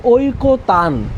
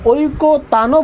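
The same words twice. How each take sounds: First: "ঐকতান" said as oi-ko-tan, closed on n; closed final consonant. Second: "ঐকতানও" said as oi-ko-ta-no, open o at the end; added final vowel. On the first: Teacher showing what we do say, "ঐকতান" closed as oi-ko-tan. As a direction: end "ঐকতান" on the n with no vowel. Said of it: "কি বলি?". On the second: Teacher showing what we don't say, "ঐকতানও" with a final o. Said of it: "বলি না আমরা". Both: Shown as a demonstration.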